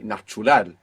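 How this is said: English sounds are kept but the stress is shifted. The speaker calls it wrong. "you don't just want to change the accent and say natural. This is not Spanish"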